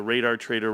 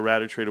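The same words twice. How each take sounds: First: "Radar" with a long A, then a full "dar"; "Radar" as RAY-dar. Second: "Radar" with a short flat A, ending "-er"; "Radar" as RADDER. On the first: Streamer guessing at a username, "Radar" said RAY-dar. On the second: Streamer guessing at a username, "Radar" said RADDER. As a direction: say "Radar" to rhyme with ladder. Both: Shown as a demonstration. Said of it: "whatever his name is".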